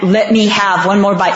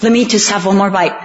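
First: One more bite asked through a laugh; half-laughing mock begging; retelling mom's plea while laughing. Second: Lightly voiced wheedling for one more bite; a hint of coaxing mother, a little quick; imitating mom begging for the brownie; pleading mom. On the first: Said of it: "I said". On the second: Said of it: "she'd go".

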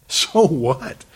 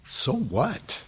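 First: Firm, full-voiced rhetorical challenge; dismissive, emphatic. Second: Soft rhetorical shrug of a question; dismissive, quiet. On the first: Preacher challenging fear of seeming weird, firmly dismissive. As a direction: throw the question out with more force. Repeats it with more force. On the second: Acted. Preacher brushing off fear of seeming weird, quietly dismissive. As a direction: toss it off softly, rising at the end. Answers his own objection, first take.

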